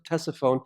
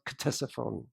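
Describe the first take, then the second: First: It is said the usual modern way. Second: It is said the original, older way. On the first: This is how people say it today. "we pronounce it" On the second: This is how it was said long ago. "It was originally pronounced"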